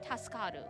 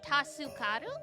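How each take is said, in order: First: The u in su is dropped. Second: The u in su is clearly pronounced. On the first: "or you cannot pronounce it" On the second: "You can pronounce the "u""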